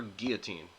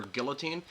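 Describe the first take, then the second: First: Put-on "guillotine" as GEE-uh-teen; "guillotine" with a silent L; pronounced without L. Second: Put-on "guillotine" as GILL-uh-teen; "guillotine" with an audible L; pronounced with L. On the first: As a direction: drop the L in "guillotine". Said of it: "how would you pronounce that word". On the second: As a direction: sound the L in "guillotine". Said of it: "Just type". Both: Shown as a demonstration.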